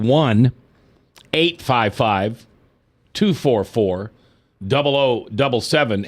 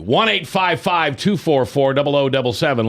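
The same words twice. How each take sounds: First: The number is read slowly. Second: The number is read at normal speed.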